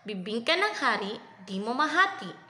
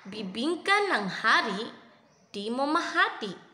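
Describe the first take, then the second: First: It is said fast. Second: It is said slowly.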